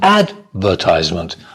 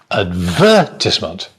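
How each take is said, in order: First: The stress is on the first syllable. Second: The stress is on a later syllable. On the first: This is the American pronunciation. "American English, advertisement. So the stress on the first syllable" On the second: This is the British pronunciation. "But British English"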